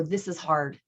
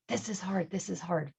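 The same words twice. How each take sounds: First: Said in the usual way. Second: Echo. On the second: Retold or imitated.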